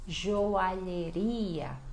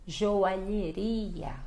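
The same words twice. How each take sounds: First: Joalheria drawn out; slow model word. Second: Joalheria very slowly, zho-a-lhe-RI-a; slow model word. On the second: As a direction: joalheria stretched out. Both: Shown as a demonstration. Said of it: "olha o lhe aqui".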